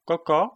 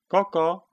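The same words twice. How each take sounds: First: High, louder cluck rising at the end; questioning hen cluck. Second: Short, high, louder cluck; agreeing hen cluck. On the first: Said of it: "protáhla Pipina". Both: A narrator's reading.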